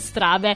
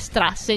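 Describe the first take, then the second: First: The middle consonant is a b sound. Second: The middle consonant is an s sound. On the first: The speaker calls it wrong. "non strabe" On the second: The speaker calls it right. "Comunque si dice strasse"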